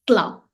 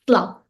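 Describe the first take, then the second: The two takes are said the same way.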